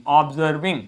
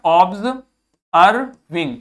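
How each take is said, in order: First: Said in the usual way. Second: Observing broken slowly into ob-ser-ving; syllable-by-syllable reading. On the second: Shown as a demonstration. Teacher decoding a written word for learners, syllable by syllable. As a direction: sound out Observing piece by piece with pauses. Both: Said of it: "ये क्या लिखा हुआ है?".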